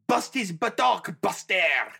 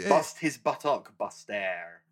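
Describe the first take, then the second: First: It is said with a broad French accent. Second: It is said with a plain accent.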